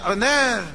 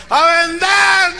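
First: Restrained, not yet roused reply; half-awake answer. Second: High, long, full shout; much louder answer. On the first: Staff just out of bed answering coach, half-awake. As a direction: imitate a group barely warmed up. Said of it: "se acaban de levantar". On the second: Staff straining to please coach, loud shout. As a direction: imitate a crowd yelling its slogan slowly. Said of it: "Más fuerte". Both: Retold or imitated.

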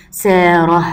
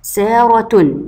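First: سارة said as saarah, ending in h; saarah, drawn out without any t in سارة; pausal form with h. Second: سارة said as saaratun, the ة a clear t; full case ending on سارة: saaratun; connected form with t. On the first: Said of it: "اما لما هقف عليها تتنطق هاء". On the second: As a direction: end سارة on a ringing "-tun". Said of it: "دي كده لما هوصل". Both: Shown as a demonstration.

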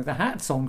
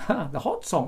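First: "hat" said with a flat a, as in cat; correcting the misread word; corrected hat song. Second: "hot" said with an open ah vowel, hot song; laughing misreading of the note. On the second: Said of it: "Or the hat song". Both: Shown as a demonstration.

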